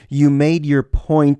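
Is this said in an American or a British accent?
American. It is said in a plain American accent.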